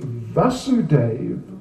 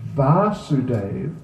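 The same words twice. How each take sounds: First: The first vowel is short. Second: The first vowel is long. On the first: It names the father. "the father, is just a simple A" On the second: It names the son. "it's the A with the line over the top"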